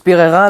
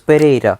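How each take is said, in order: First: The name is said with French pronunciation. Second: The name is said with Spanish pronunciation. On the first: "en français ça se prononce Pereira" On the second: "en espagnol ça se prononce Pereira"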